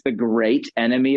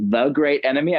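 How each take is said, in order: First: Said in the usual way. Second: "the" stressed as "thee", questioning rise at the end; sceptical stress on THE. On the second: Retold or imitated. Guest doubting the philosopher's claim, sceptical stress on "the". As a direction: lean on "the" in mock doubt, lifting "enemy" into a question.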